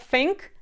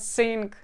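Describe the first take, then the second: First: The word begins with a TH sound. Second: The word begins with an S sound. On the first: The speaker calls it right. "not think" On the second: The speaker calls it wrong. "but sing"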